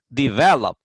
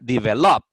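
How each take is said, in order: First: The stress is on the second syllable. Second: The stress is on the last syllable. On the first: The speaker calls it right. "Pero la verdadera pronunciación del verbo es develop. En la segunda sílaba tiene eh, la acentuación fuerte" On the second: The speaker calls it wrong. "Y si lo pongo en la última sílaba diría develop"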